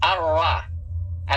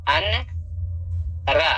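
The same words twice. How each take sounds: First: अर्रा with the न merged into a doubled र; slow drawn-out अर्रा with the न swallowed; idgham. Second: अन रा with the न spoken separately; the spelling said out, न then रा; as written. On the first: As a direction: drop the न, lean long on the doubled र. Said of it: "लेकिन पढ़ा जाएगा". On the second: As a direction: written form अन रा, not the recitation. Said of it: "क्या लिखा जाएगा?". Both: Shown as a demonstration.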